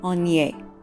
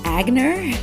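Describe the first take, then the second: First: The G is silent, without a hard G sound. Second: The G is pronounced as a hard G. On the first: This is the French pronunciation. "with a French pronunciation, it would be Onier" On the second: This is an English-style pronunciation used in the family. "my mom pronounces pronounced it Agner, which again is fine"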